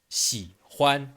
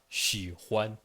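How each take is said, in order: First: It starts with the Chinese sound. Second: It starts with the French ch sound. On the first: The speaker calls it right. "ça va donner" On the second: The speaker calls it wrong. "et non pas"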